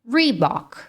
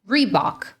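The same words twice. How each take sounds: Both takes have the same delivery.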